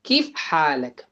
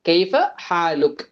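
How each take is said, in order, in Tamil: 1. இது சவுதி-எமிராத்தி பேச்சுவழக்கு வடிவத்தில் சொல்லப்படுகிறது. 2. இது முறையான நிலையான அரபு வடிவத்தில் சொல்லப்படுகிறது. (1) "சவுதி இமாராத்தி ஸ்லாங்ஸ்ல" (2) "ஸ்டாண்டர்ட் அரபிக்ல"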